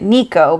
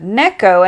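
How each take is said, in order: First: The name is said with an English-style vowel. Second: The name is said with a Japanese-style vowel. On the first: The speaker calls it wrong. "I was pronouncing it incorrectly. I was calling it Nico because that's, I don't know, just a more English way to say things" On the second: The speaker calls it right. "the correct pronunciation of Neko"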